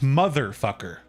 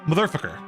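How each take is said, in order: First: Two syllables carry stress, as in two words. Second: Only the second syllable carries stress. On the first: It is treated as two words. "we pronounce this motherfucker" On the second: It is treated as a single word. "if this was a single word and we only stressed one syllable, we would pronounce this motherfucker"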